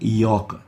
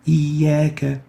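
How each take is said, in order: First: The vowel is heavy and full-mouthed. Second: The vowel is light and thin. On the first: The speaker calls it wrong. "We don't say" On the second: The speaker calls it right. "attenuation of the Alif"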